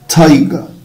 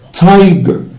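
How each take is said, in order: First: The final r sound is dropped. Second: The final r sound is pronounced.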